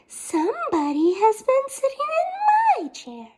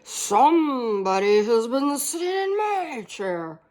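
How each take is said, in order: First: It is said in a medium voice. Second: It is said in a deep, gruff voice.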